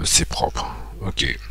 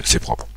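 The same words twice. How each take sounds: First: Whispered to himself; "c'est propre" breathed out as a soft whisper. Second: Said in the usual way. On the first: Real, not acted. Muttering satisfied self-check.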